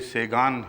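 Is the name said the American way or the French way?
American. The name is said as Say-gan, n pronounced. The name has been anglicized. "अगर तो American pronunciation बन गया है ये"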